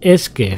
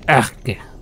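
First: It is said in a plain, neutral way. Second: It is said in a rough, blunt way. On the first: "Aquí no decimos es que" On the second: "Así a lo bruto"

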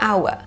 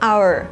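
First: The word ends without an R sound. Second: The word ends with a slight curled R sound. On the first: "อันนี้จะเป็นแบบไม่ออกเสียงตัว R" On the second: "ถ้าเป็น American น่าจะแบบมีการเกรงลิ้นให้ออกเสียงตัว R นิดนึง"

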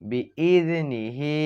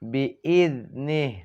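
First: The word ends with a final short vowel. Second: The word ends without the final vowel. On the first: The reading continues without stopping. "এখানে আছে বিইজনিহি" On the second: The reader stops at this word. "ওয়াকফ করলে বিইজনিহ"

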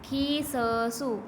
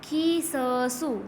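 No difference in how they are said.

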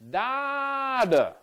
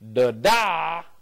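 First: The stress falls on the first syllable. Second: The stress falls on the second syllable. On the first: "if the stress is on the first syllable, dada, the first syllable is stronger" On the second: "if the stress is on the second syllable, da-da"

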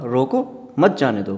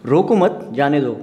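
First: The pause falls after रोको. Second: The pause falls after मत. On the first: Stop the person; do not let them go. "उसको रोको, उसको जाने मत दो" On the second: Do not stop the person; let them go. "उसको रोको मत, उसको जाने दो"

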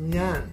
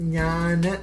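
First: The word ends in a plain, clipped n sound. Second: The word ends with a short vowel after n. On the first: The speaker calls it right. "You use the chillaksharam" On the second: The speaker calls it wrong. "it is not ഞാന്"

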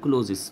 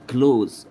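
First: The word ends with an extra added syllable. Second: The word is said as a single syllable. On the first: The speaker calls it wrong. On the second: The speaker calls it right.

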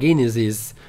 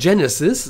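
First: It sounds much like the word Genitalien. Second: It does not sound like the word Genitalien. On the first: The speaker calls it wrong. "aber die sagt immer Genesis. Das hört sich sehr nach Genitalien an" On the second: The speaker calls it right. "Die sagt einfach nicht Genesis, das kann man doch einfach so sagen"

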